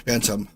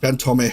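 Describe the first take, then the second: First: The last syllable sounds like 'tom', with a short vowel. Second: The last syllable sounds like 'tome', with a long vowel. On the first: The speaker calls it right. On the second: The speaker calls it wrong. "Not Phantome"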